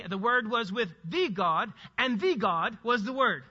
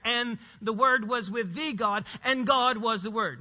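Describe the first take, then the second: First: Slow reading, "the God" set apart each time; emphatic double article. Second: "the" as a long "thee" before the first "God" only; stress on first article. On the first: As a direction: stress "the" before both "God"s. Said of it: "if you want it for emphasis, you could say it like this". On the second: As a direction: lean on "with the God", then plain "and God". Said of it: "first one already had the definite article there". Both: Shown as a demonstration.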